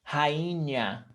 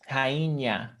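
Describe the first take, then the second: No difference in how they are said.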